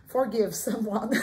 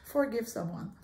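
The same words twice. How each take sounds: First: English words with a French accent; loud, drawn-out French-accented English. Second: English accent. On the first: Real, not acted. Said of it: "Mon Dieu, je parle en français". (accent français en anglais) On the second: Shown as a demonstration. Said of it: "Je vais prendre mon accent anglais". (avec un accent anglais)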